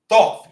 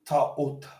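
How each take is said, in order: First: The name begins with a TH sound. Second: The name begins with a plain T sound. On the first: The speaker calls it wrong. "Ain't even how you say his name, because you don't say a T H like that together" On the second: The speaker calls it right. "It's actually Ta'ut"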